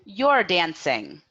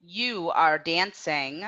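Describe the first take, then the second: First: "You're dancing" with "You're" as one syllable, falling end; contracted form for repetition. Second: Slow "You are dancing", "You are" as two words, rising end; full form for repetition. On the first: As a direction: model the contraction "You're dancing" slowly for learners. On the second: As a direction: model "You are dancing" uncontracted and slowly for learners. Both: Shown as a demonstration. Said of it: "Repeat after me".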